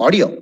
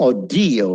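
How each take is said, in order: First: Audio stressed on the first syllable; wrong stress. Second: Audio as "aw-DEE-o"; second-syllable stress. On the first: Teacher showing learners the mistake, audio wrongly stressed. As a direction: say audio as "AW-dio". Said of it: "It's not audio". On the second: Teacher correcting audio, emphasis on second syllable. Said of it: "ആ second സിലബിളിൽ". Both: Shown as a demonstration.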